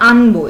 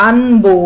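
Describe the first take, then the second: First: Said in the usual way. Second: আনবো said louder, with a clear o after ব; final o sounded. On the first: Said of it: "আমি উচ্চারণ করছি কেমন". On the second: Shown as a demonstration. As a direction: spell out আনবো, ending on an audible o. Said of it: "ব এর সাথে কিন্তু একটা ওকার উচ্চারণ করছি".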